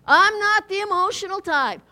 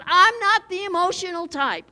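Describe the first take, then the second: First: A hint of a stiff, proud churchgoer, a touch louder; mock stiff church member. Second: A hint of a stiff, proud churchgoer; lightly voiced scoffer, a touch louder; mock stiff church member. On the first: Preacher quoting the congregation, lightly mock-proud. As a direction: repeat the claim with mock pride. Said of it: "You heard that?". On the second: Preacher mocking people who claim no emotion, a hint of a stiff scoffer. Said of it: "people all over says".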